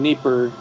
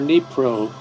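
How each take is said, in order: First: The name is said in its Russian form. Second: The name is said in its Ukrainian form. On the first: "the Russian" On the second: "the Ukrainian pronunciation"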